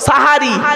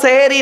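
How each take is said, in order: First: The first vowel is an a sound. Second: The first vowel is an e sound. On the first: The speaker calls it right. "শব্দটা হলো সাহারি" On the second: The speaker calls it wrong. "শব্দটা সেহেরি নয় বাবা"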